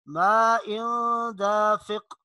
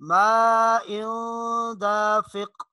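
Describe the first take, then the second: Both takes have the same delivery.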